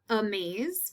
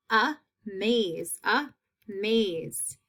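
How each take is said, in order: First: Said in the usual way. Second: Amaze in two separate beats; split into syllables. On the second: Shown as a demonstration. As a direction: pause between a and maze in amaze. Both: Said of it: "long A in that second half".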